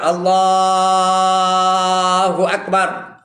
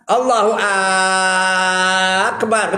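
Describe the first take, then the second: First: The word Allah is drawn out long. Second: The syllable Ak is drawn out long. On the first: The speaker calls it right. "Allah tak apa. Allahu Akbar. Ha, tu boleh" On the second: The speaker calls it wrong. "Ak tu pun tak boleh panjang"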